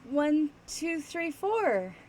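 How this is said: It sounds hesitant and nervous, unsure of welcome. The speaker fears the listener is angry. "you're walking up to somebody that you think is mad at you, but you're not sure"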